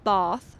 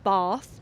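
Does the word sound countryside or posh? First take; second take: posh; posh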